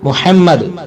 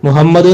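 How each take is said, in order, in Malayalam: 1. h ആഴമുള്ള, മുറുകിയ തൊണ്ട ശബ്ദമാണ്. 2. h ഒരു ലഘുവായ ശ്വാസ ശബ്ദമാണ്. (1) "ഇങ്ങനെ തന്നെ ഉച്ചരിക്കുക" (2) "മുഹമ്മദ് എന്ന് പറയുന്നവരുണ്ട്"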